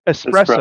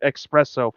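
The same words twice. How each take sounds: First: The word begins with an 'ess' sound. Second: The word begins with an 'ex' sound. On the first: The speaker calls it right. "It's E S, not E X" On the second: The speaker calls it wrong. "someone calls it espresso"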